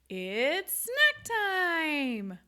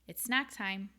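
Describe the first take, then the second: First: It is said with lively, varied pitch. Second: It is said in a flat monotone.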